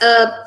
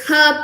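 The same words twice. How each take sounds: First: It is said with an American pronunciation. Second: It is said with a British pronunciation. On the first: "Americans as herb" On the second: "The British they pronounced it as herb"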